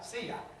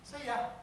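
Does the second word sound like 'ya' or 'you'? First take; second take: ya; ya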